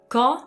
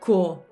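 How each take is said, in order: First: The vowel is said with an open mouth. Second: The vowel is said with a closed mouth. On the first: The speaker calls it right. "it's open" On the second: The speaker calls it wrong. "so it's not co, it's not closed"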